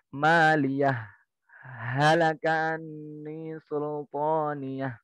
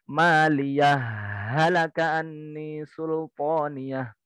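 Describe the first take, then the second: First: There is a brief pause after maliyah. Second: Maliyah runs straight into halaka without a break. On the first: "Bacaan yang ketiga saktah" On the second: "disambung wasol tapi masuk ke ha yang kedua"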